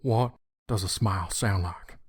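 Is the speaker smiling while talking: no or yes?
no. It is spoken with a straight, unsmiling face. "without a smile"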